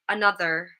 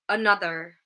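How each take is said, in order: Both takes have the same delivery.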